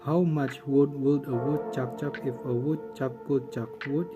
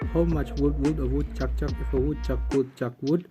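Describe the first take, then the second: First: It is said at a normal pace. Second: It is said at a fast pace.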